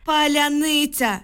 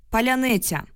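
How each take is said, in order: First: High, drawn-out narrated scream, contained volume; all-out cry. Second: Higher-pitched callback at ordinary volume; loud answer. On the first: Woman shouting password as a soldier takes aim, high drawn-out cry. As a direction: stretch the word in a desperate high cry. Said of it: "щосили прокричала я". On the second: Newcomer giving the password to the guard, restrained call. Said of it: "голосно відповів голос". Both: A narrator's reading.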